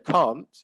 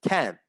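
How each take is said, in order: First: The vowel is not the American one. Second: The vowel is the American one.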